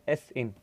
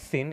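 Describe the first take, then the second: First: It is said as the letter S, then in. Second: It is said as the single word sin. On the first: The speaker calls it right. "It is S in" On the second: The speaker calls it wrong. "Don't pronounce it as sin"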